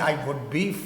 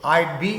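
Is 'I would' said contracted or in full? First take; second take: full; contracted. First: 'I would' is said as two full words. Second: 'I would' is shortened to one syllable, 'I'd'.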